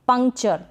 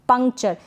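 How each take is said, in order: The two takes are said the same way.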